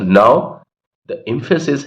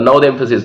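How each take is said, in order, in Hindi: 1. 'now' के बाद एक छोटा सा रुकाव है। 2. 'now' के बाद सीधा आगे बढ़ता है, कोई रुकाव नहीं। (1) "ऐसे बोला जाएगा" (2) "नाउ के बाद में स्टेटमेंट कभी भी सीधा नहीं बोला जाता, नाउ द एम्फेसिस नहीं होता"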